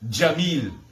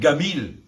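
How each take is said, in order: First: The word begins with a j sound. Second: The word begins with a hard g sound. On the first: "jamais de dire Jamil" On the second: "dans l'Égypte ... tout le temps de dire Gamil"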